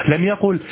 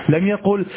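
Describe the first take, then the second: The two takes are said the same way.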